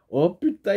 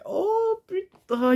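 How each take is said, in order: First: Petit « oh putain » surpris, voix un peu montée; lâcher « oh putain » en réaction à la scène; juron surpris. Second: « oh putain » imité très aigu et étiré, lentement; imitation de la réaction. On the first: Retold or imitated. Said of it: "Et que je me suis". (« oh putain » surpris mais retenu) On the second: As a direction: imiter quelqu'un choqué, voix perchée qui traîne. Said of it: "il a fait". (le commentateur cite un spectateur, « oh putain » aigu et traînant)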